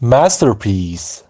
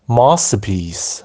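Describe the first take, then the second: First: It is said in a non-British, American-style accent. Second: It is said in a British accent.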